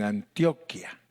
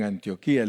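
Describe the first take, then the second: First: "Antioquia" stressed on TIO, short ending; stress on earlier I. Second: "Antioquía" stressed on the final í. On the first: Preacher shows Colombian usage, "Antioquia" stressed an-TIO-kia. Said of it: "el acento en la primera I". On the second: Preacher contrasts with Colombians, "Antioquía" with stressed final í. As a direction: land on the í of "Antioquía". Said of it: "tiene acento en la última I". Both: Shown as a demonstration.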